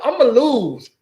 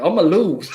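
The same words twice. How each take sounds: First: Mock lawyer quote. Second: Said in the usual way. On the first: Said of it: "he already tell us straight up". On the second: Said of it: "You already know my record".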